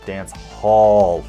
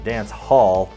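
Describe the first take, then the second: First: The second word is said like 'haul', pulling. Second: The second word is said like an ordinary hall. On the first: The speaker calls it right. "like you're pulling it" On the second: The speaker calls it wrong. "Not Dance Hall"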